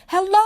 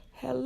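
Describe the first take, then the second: First: Loud, high call from a mountaintop; shouting hello. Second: Soft, distant echo of the call; faint echo. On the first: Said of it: "and I shouted". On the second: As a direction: answer like an echo far away. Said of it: "It sounded just like my voice, only far away". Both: A narrator's reading.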